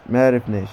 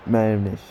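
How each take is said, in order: Both takes have the same delivery.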